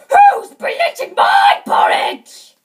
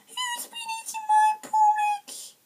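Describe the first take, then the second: First: It is said in a big, deep voice. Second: It is said in a tiny, small voice. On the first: "he said in his great big voice" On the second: "he said in his tiny wee voice"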